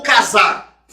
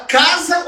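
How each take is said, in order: First: "casar" stressed on the final ZAR; stress on last syllable. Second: "casa" stressed on CA, the final A weak; stress on first syllable. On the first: Teacher offering two pronunciations, "casar" with the ending stressed. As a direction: push the weight onto the end of "casar". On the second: Teacher offering two pronunciations, "casa" with CA stressed. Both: Shown as a demonstration. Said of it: "Você fala casa ou casar?".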